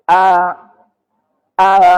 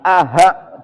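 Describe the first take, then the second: First: The second hamza is softened and vague. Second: The second syllable has a clear h sound. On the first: The speaker calls it right. "tapi samar, ngambang" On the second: The speaker calls it wrong. "bukan aha"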